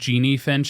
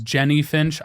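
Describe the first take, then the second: First: The first name has a long 'ee' vowel. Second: The first name has a short 'eh' vowel. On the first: The speaker calls it wrong. "I don't know why I said Jeannie Finch" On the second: The speaker calls it right. "I know I mispronounced the name. It was Jenny Finch"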